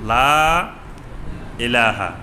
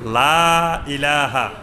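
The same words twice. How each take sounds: First: The vowel after 'la' is held long. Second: The vowel after 'la' is held short. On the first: The speaker calls it right. "এখানে তিন আলিফ মত" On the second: The speaker calls it wrong. "কয় এক আলিফ মত"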